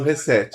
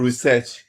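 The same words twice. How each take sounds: First: The word is pronounced with Brazilian Portuguese sounds. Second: The word is pronounced with English sounds. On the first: "nós já brasileiramos" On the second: "como se diz, né? Com a pronúncia correta"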